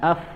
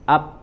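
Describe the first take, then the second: First: Both lips come together with flowing air. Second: Both lips close with no flowing air. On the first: "mengeluarkan angin betul, tapi dari segi makhrajnya dia salah" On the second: "menempelkan kedua bibir ... Yang tidak sudah jelas itu keliru"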